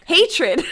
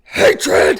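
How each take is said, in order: First: It is a mild heavy metal voice. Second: It is a harsh, raspy demon scream.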